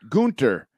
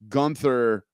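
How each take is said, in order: First: The name is said with a German pronunciation. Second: The name is said with an English pronunciation. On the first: "putting a German pronunciation on it" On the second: "like Gunther from Friends"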